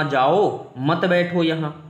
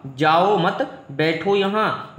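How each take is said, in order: First: Slow, separate "जाओ", then "मत बैठो यहाँ" together; pause after जाओ. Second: Slow "जाओ मत", pause, then "बैठो यहाँ"; drawn-out जाओ मत, then a separate बैठो यहाँ; pause after मत. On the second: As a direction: break slowly after मत, keeping it joined to जाओ. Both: Shown as a demonstration. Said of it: "बस कॉमा का अंतर है".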